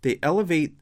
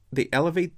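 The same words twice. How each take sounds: The two takes are said the same way.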